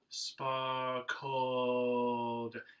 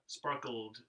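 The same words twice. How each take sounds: First: The second syllable has an open vowel before L. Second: The second syllable is a bare clipped L ending. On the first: The speaker calls it right. "take care of how you pronounce that second vowel" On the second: The speaker calls it wrong. "we're lazy about it, and we do that L E D"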